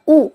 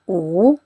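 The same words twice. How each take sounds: First: The pitch falls sharply from high to low. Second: The pitch dips low and then rises. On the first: "Kalau nada empat u ya" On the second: "nada tiga jadi u"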